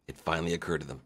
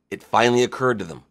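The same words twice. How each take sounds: First: Dropped low and soft, like a dawning realisation; softer repeat. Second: Said in the usual way. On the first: Shown as a demonstration. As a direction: let it sink in quietly.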